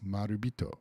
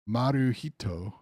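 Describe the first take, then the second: First: The middle consonant is a b sound. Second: The middle consonant is an h sound. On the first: The speaker calls it right. "it's Marubito" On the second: The speaker calls it wrong. "So instead of Maruhito"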